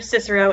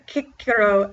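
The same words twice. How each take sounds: First: The first C is soft. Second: The first C is hard. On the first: The speaker calls it wrong. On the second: The speaker calls it right. "C is always hard"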